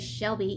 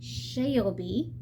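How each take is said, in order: First: The name is said plainly, without extra syllables. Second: The name is drawn out with an added syllable. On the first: The speaker calls it wrong. "you can't say Shelby" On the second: The speaker calls it right. "we're in the South, and we add syllables to everything"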